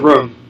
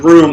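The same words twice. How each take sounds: First: The word has a Boston vowel, like 'rum'. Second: The word has a standard American vowel. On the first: "It comes out in a few words, like when I say room" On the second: "I don't say room"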